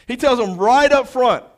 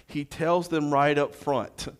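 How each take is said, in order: First: Much higher and louder, preacher raising his voice; preached loud. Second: Said in the usual way. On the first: Shown as a demonstration. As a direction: lift it into a full preaching call.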